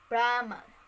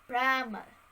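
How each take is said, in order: Both takes have the same delivery.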